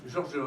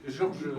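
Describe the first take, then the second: Both takes have the same delivery.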